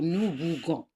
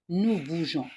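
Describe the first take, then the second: First: The g is a hard sound, as in go. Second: The g is a soft sound, as in measure. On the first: It no longer means the action of moving. The speaker calls it wrong. "Si on n'ajoute pas la voyelle E, on va lire nous bougons" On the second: It keeps the meaning of the action of moving. The speaker calls it right. "on ajoute E pour garder le son G"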